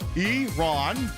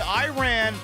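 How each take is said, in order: First: It begins with an 'ee' sound, then 'Ron'. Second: It begins with an 'eye' sound, then 'ran'. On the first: The speaker calls it right. "Think letter E and then Ron" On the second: The speaker calls it wrong. "that's a Flock of Seagulls song"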